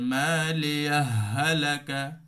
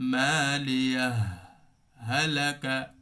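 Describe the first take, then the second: First: The two words run together without a stop. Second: The voice stops briefly between the two words. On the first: "দুইটা সংযুক্ত করে দেওয়া" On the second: "এটাকে বলা হয় সাক্তা"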